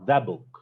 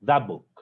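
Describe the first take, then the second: First: The t at the end of that is dropped. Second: The t at the end of that is dropped.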